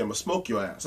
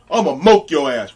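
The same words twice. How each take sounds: First: Said in the usual way. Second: Loud mock threat, "moke" for smoke; "moke" without its S, imitating a shouted threat; mispronounced threat. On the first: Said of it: "he was trying to say". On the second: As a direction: drop the S, booming out "moke". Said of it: "which he was trying to say".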